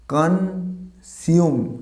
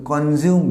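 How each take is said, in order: First: কনজিউম slowly split as "kan... sium"; corrected pronunciation. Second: কনজিউম as "kon-zium", with a z; common mispronunciation. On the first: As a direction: draw out কনজিউম with an s instead of z. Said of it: "আমরা এখানে আবার স হবে". (সঠিক কনজিউম, টেনে "কান-সিউম") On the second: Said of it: "not a consume". (ভুল কনজিউম, "জ" দিয়ে) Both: Shown as a demonstration.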